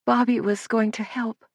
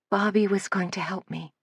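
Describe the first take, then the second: First: Higher, tearful lament; sobbing. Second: A soft, confessional admission; confessing softly. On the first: Girl mourning Bobby to Suzanne, tearful and higher. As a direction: let the tears break into it. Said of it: "sobbed Lydia". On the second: Lydia confessing to Suzanne, soft and hushed. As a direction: admit it quietly like a confession. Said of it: "almost as though she were confessing". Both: A narrator's reading.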